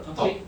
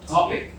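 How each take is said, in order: First: The stress is on the second syllable. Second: The stress is on the first syllable. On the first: The speaker calls it wrong. "anh sẽ hay bị nhấn vào âm thứ hai" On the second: The speaker calls it right. "Nhưng mà phải là topic"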